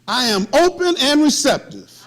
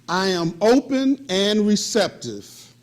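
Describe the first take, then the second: First: It is said firmly, with strong conviction. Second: It is said plainly, with little conviction.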